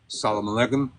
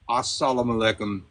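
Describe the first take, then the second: First: It starts directly with 'salam', no opening 'a'. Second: It starts with 'as' and includes a 'mu' syllable. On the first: "in my Palo, we say uh, salam alaikum" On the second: "I think it's Arabic, it's assalamu alaikum"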